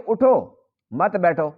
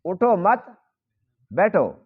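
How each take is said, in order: First: "اٹھو" alone, a short break, then "مت بیٹھو" together; pause after اٹھو. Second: "اٹھو مت", a clear break, then falling "بیٹھو"; group اٹھو with مت, then order بیٹھو alone; pause after مت. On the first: Teacher giving the second reading, meaning stand, pause after اٹھو. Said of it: "دوسرا یہ کہ". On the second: Teacher repeating the reading that means sit, pause after مت. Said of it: "تقاضا کر رہا ہے کہ تم بیٹھو". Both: Shown as a demonstration.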